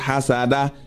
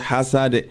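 First: The word ends with an added vowel sound. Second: The word stops on its final consonant. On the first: The speaker calls it wrong. "You not say hasada" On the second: The speaker calls it right. "you're going to say hasad"

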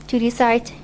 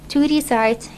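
Both takes have the same delivery.

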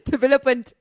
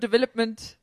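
First: The end of the word comes out garbled. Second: The end of the word comes out clear. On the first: The speaker calls it wrong. "I say the beginning of the word, and then the end, I just mess it up" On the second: The speaker calls it right. "Instead of development"

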